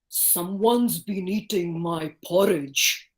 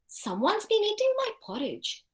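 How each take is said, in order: First: The voice is big, deep and heavy. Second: The voice is the speaker's ordinary natural voice. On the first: A large, strong character is speaking. "big, heavy voice" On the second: A middle, ordinary character is speaking. "I'll use my own voice here"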